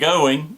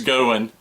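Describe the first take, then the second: First: It ends with a full -ing sound. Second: It ends in -in, Southern style.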